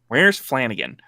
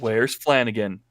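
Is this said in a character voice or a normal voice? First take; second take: character; normal. First: It is said in a put-on character voice. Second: It is said in the speaker's ordinary voice.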